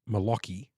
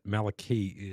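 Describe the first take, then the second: First: The middle syllable sounds like 'lock'. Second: The middle syllable does not sound like 'lock'. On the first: The speaker calls it wrong. "I always thought it was Malaki, because I'm thinking like Lockie as in Lachlan" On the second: The speaker calls it right. "Maliki is what I've been told"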